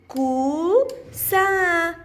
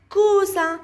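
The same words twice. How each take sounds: First: كو and سا as two held syllables. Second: كوسا joined into one word; syllables blended. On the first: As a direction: sound out كو, pause, then سا, vowels drawn out. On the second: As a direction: run كو straight into سا. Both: Shown as a demonstration. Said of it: "سأقرأهم معًا".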